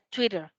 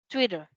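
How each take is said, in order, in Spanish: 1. La t del medio suena como una r rápida. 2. La t del medio suena como una r rápida.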